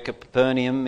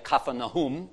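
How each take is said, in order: First: It is said the usual English way, Capernaum. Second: It is said like Kfar Nahum, the local way.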